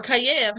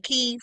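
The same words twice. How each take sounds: First: Kyiv said in two syllables, kai-EV; two-beat Kyiv, stress on the second; two-syllable pronunciation. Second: Kyiv said as one syllable, KEEV; one-beat Kyiv with a long ee; one-syllable pronunciation. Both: Shown as a demonstration. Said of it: "however you say it".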